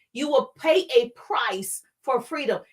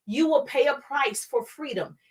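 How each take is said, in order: First: "pay a price" spaced out word by word; emphatic repetition. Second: Said in the usual way. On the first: Real, not acted. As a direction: land firmly on each word of "pay a price". Repeated word by word for weight.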